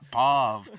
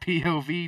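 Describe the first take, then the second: First: It is said as one single word. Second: It is spelled out letter by letter. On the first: The speaker calls it wrong. "It's not a word" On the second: The speaker calls it right. "it's P O V, dude"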